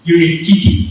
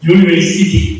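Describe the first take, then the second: First: The middle syllables are garbled into repeated sounds. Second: The word is said with all its syllables. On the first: The speaker calls it wrong. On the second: The speaker calls it right.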